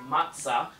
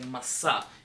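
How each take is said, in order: First: The middle consonant is a ts sound. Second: The middle consonant is a plain s sound. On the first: This is the common pronunciation. "I'm not saying matzah"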